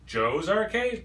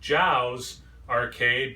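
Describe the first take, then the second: First: The first word is said like the name Joe. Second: The first word is said like the spelling. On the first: The name is said like the owner's first name. "well, his name's Joe" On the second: The name is read from its spelling. "it's spelled J O W for arcade, so I would pronounce it Jow's Arcade"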